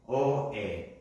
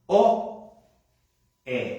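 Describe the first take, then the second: First: The two sounds are said quickly, close together. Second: The two sounds are said slowly, clearly apart.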